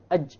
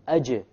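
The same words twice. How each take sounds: First: The final j is stopped and cut off. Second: The final j is released with a slight bounce. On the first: The speaker calls it wrong. "If you don't have a qalqalah" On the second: The speaker calls it right. "You need the qalqalah"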